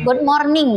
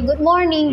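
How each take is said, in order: First: It is said with a Palembang accent, strong R. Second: It is said with a fluent native-like English accent.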